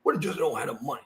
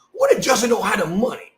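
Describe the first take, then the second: First: Softer, weight on "don't" with a rising end; stress on DON'T. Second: "what" punched louder with a rising end; stress on WHAT. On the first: Repeating the call line quietly, stress on "don't". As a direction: drop the volume and lean on "don't". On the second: Mocking a line from the call, stress on "what". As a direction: lean on "what" and lift the question. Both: Shown as a demonstration. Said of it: "Like, what if Justin don't have the money".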